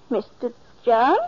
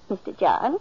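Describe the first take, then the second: First: Louder, rising call of the name John; alarmed call. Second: Calling his name, puzzled. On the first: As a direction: call out, starting to worry. Calling louder, no answer. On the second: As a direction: call to him across the room. Martha calling him with his milk. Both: Acted.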